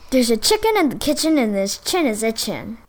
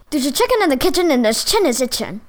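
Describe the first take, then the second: First: It is said at a moderately fast pace. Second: It is said at a very fast pace.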